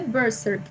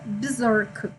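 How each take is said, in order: First: The word is said with Portuguese sounds. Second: The word is said with English sounds. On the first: "eu acho que em português é Berserk" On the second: "A pronúncia correta em inglês seria Berserk"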